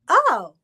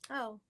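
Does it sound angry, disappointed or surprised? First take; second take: surprised; disappointed. First: It sounds surprised. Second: It sounds disappointed.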